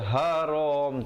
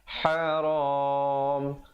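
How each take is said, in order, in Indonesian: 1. Vokal akhir dibaca pendek. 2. Vokal akhir dibaca panjang. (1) "Jangan baca haram, tak betul" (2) "Yang betulnya haram dengan dua, empat ataupun enam harakat"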